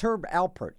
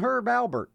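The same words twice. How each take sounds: First: The surname is said with a P sound. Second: The surname is said with a B sound. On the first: The speaker calls it right. "No, it's Herb Alpert" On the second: The speaker calls it wrong. "it's not [name]. People say"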